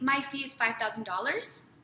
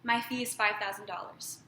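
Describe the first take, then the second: First: The pitch rises at the end of the sentence. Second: The pitch falls at the end of the sentence. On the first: The speaker is unsure and open to negotiation. The speaker calls it wrong. "Vocal pitch raise, unsure of yourself" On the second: The speaker knows their value and will not negotiate. The speaker calls it right. "Period. ... very firm"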